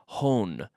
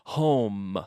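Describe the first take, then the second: First: The word ends with an N sound. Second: The word ends with closed lips on M. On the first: The speaker calls it wrong. "No quiero oír hone" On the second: The speaker calls it right. "closing your mouth with the M"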